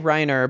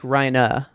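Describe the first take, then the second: First: The final R is clearly pronounced. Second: The final R is soft and dropped. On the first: The speaker calls it wrong. "I say Reiner" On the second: The speaker calls it right. "it's like Raina"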